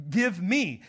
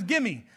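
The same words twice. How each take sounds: First: "Give me" with the v sounded; two separate words. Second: "gimme" run together as GIM-mee; Southern contraction. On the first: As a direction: say "Give me" fully, word by word. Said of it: "so it's give me". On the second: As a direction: say "gimme" as one word. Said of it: "He said another one is gimme". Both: Shown as a demonstration.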